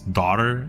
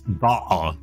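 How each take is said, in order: First: It is said with an American accent. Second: It is said with a British accent. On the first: "Americans pronounce daughter" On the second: "in the U K they pronounce da"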